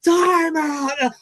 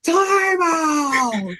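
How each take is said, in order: First: Repeated timeout yell. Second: Screaming time out. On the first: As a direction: bellow the call a second time. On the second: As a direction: yell it at the top of your lungs. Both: Retold or imitated. Coach yells to the official, screaming time out. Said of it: "I go".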